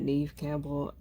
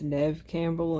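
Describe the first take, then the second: First: The first name has a long 'ee' vowel. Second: The first name has a short 'eh' vowel. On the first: The speaker calls it wrong. "and not Neve Campbell" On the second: The speaker calls it right. "It's pronounced Nev Campbell"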